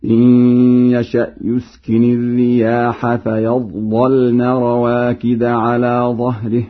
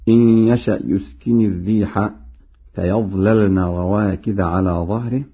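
First: Slow chant, heavy first lam in "فيظللن"; Warsh heavy lam. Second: Said in the usual way. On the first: Shown as a demonstration. Teacher demonstrates Warsh's reading, chanted with heavy lam in "فيظللن". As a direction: recite plural "الرياح", thicken first lam of "فيظللن". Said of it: "بتغليظ اللام الأولى". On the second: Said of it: "بالجمع".

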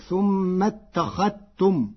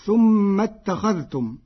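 First: اتخذتم with the dh merged into the t, ittakhattum; Warsh reading. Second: Said in the usual way. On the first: Shown as a demonstration. (اتخذتم بإدغام الذال في التاء) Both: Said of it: "بإدغام الذال في التاء".

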